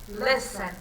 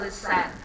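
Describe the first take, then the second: First: The stress is on the first syllable. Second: The stress is on the second syllable. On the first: The speaker calls it right. "less é a sílaba mais forte" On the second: The speaker calls it wrong. "a gente não fala listen"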